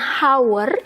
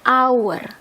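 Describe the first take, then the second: First: The word begins with an audible h sound. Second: The word begins directly with a vowel sound. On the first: The speaker calls it wrong. "kita bacanya bukan hour" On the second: The speaker calls it right. "kedengarannya kan a"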